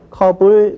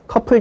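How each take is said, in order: First: The middle consonant is a soft b. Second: The middle consonant is an aspirated p. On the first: The speaker calls it right. "컵을 그렇게 발음합니다" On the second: The speaker calls it wrong. "이렇게 발음을 해야 되지만 아무도 그렇게 발음 안 하죠"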